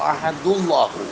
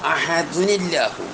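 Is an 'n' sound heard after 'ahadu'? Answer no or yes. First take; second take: no; yes. First: 'Ahadu' runs into 'allahu' with no 'n' sound. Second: An 'n' sound links 'ahadu' to 'allahu'. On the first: The nunation is dropped to avoid two sukuns meeting. "അഹദിൻ്റെ തൻവീനെ കളഞ്ഞീന" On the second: The nunation on the word is kept. "ഖുൽ ഹുവല്ലാഹു അഹദുനില്ലാഹു എന്ന് പറയണ്ടേ?"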